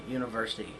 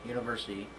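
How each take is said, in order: Both takes have the same delivery.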